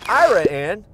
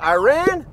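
First: It is said the local Texas way. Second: It is said the usual, standard way. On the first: It names a small town in Texas. "you're just hopping out to" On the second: It names the country. "you'll be hopping on one serious plane flight"

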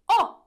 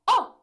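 The two takes are said the same way.

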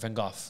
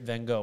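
First: Gogh is pronounced a more native, non-English way. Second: Gogh is pronounced the usual anglicized way. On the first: The speaker calls it right. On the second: The speaker calls it wrong.

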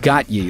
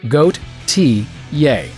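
First: The name has two syllables, got-yuh. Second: The name has three syllables, goat-ee-yay. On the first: The speaker calls it wrong. "stop saying got ye like some kind of uncultured swine" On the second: The speaker calls it right. "just remember this pictograph"

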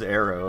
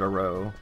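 First: It sounds like the word 'arrow'. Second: It sounds like the words 'a row'. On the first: The speaker calls it wrong. "I wouldn't pronounce it as arrow" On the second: The speaker calls it right. "I would pronounce it a row"

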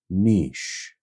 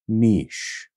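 First: It is said in the European way. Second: It is said in the European way.

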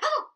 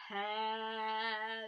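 First: It is said fast. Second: It is said slowly.

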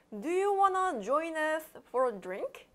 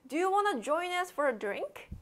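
First: The sentence is spoken slowly. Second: The sentence is spoken quickly. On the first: "천천히 한번 해볼까요?" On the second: "선생님 너무 빨랐어요"

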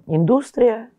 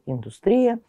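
First: The stress is on the second syllable. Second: The stress is on the third syllable. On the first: "на втором слоге" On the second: "или на слоге третьем"

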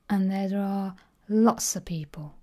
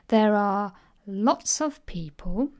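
First: 'Lots of' is squeezed into 'lotsa'. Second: The word 'of' is fully stressed.

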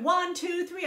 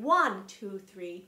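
First: All three counts get equal weight. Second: The first count is stressed more strongly. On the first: The speaker calls it wrong. "I'm not going 1, 2, 3" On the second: The speaker calls it right. "beat one of each measure gets a little bit stronger beat"

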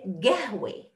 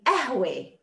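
First: The word begins with a g sound. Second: The word begins without a k sound. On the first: This is the Bedouin dialect form. "And the Bedouin will say gahwe" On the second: This is one regional dialect form. "And some would say ahwe. The ka becomes a"

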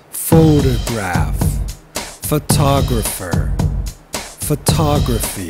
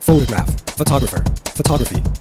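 First: The three words are said slowly. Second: The three words are said quickly. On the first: "Say it slowly" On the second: "and then build up the speed"

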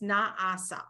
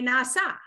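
First: The syllables are kept clearly separate. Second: The syllables are blended smoothly together. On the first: This is how it goes when read aloud. "But when you read it, it's na'asa" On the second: This is how it goes when sung. "when we sing it, we say na'asa, right? We kind of like blend it all together"

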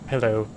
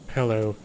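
The two takes are said the same way.

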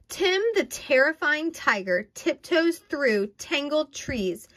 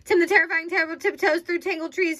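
First: It is read at a normal pace. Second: It is read very fast.

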